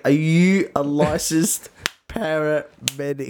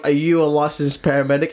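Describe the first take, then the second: First: Slow, word-by-word judge's question; insistent judge. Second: Judge's question at normal pace; lightly voiced judge. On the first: Pretend. Judge repeating the question to the rescuer, pointedly slow. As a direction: spell it out slowly, pressing the point. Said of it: "and he's like". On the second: Judge questioning the would-be rescuer, matter-of-fact. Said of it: "The judge is like".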